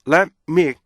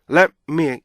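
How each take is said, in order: No difference in how they are said.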